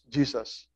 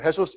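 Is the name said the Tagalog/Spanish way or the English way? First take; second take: English; Tagalog/Spanish. First: The name is said the English way. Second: The name is said the Tagalog or Spanish way.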